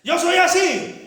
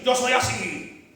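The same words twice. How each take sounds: First: Loud, high defiant shout; macho husband shout. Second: Slow, drawn-out defiant shrug; stubborn husband. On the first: Husband shouting down his wife, loud defiant. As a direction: bark it at her, swaggering. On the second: Husband brushing off his wife, slow defiant. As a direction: drag it out, unbothered. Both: Acted.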